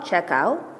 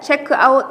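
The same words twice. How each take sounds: First: The two words are linked together. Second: The two words are said separately.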